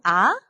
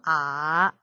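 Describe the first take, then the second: First: The pitch rises like a question. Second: The pitch dips low. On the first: "이성" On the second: "삼성"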